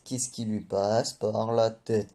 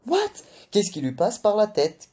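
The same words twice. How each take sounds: First: Slower, drawn-out repeat of the question; slow disbelief. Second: High, loud shocked outburst; outraged disbelief. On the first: Reviewer repeating his question about Nami, slow and incredulous. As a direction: let the disbelief sink in, deliberately. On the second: Reviewer reacting to Nami offering Zeus a deal, shocked and loud. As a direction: blurt it out, stunned and indignant. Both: Acted.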